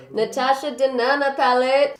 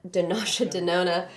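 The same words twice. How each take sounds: First: "Natasha Denona" said right, with N and "ta"; correcting to "Natasha Denona" with a clear N; corrected brand name. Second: "Dinasha Denona" with a D and "di" at the start of both names; saying "Dinasha Denona" wrong, starting with D; mispronounced brand name. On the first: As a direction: fix it to "Natasha Denona", louder and higher. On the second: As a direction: stumble over "Dinasha Denona" as a D-sound. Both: Real, not acted.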